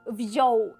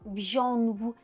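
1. Це звичайна о без носовості. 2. Голосний носовий, з додатковим звуком н. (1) "чуємо там просто Оу. Тобто без оцієї носовості" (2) "регіональна вимова, інколи вона трапляється, інколи, це просто звичка"

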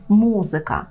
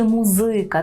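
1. Наголос на першому складі. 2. Наголос на другому складі. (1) "згідно з правильною вимовою мало б бути музика" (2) "згідно з польським правилом, мало би бути музика"

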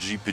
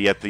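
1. Słowo wymawia się w angielskiej wymowie. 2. Słowo wymawia się z polską wymową czytaną.

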